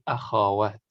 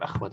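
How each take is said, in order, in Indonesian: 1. Ada vokal a pendek di antara kh dan w. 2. Bunyi kh langsung ke w, tidak ada vokal. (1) "tapi akhawat" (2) "bukan akhwat"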